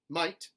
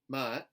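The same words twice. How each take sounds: First: It has a full gliding 'eye' vowel. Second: It has a flatter, 'ah'-like vowel. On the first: "General American I" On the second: "the intermediate A for contemporary Southern"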